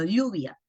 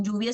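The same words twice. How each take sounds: First: "lluvia" with the ll as a palatal lateral, "lyuvia", tongue flat on the palate; Andean ll. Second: Said in the usual way. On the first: Shown as a demonstration. Teacher contrasting Andean pronunciation, lateral ll. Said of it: "la doble L la pronuncian diferente". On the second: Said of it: "no dicen lluvia, sino lluvia".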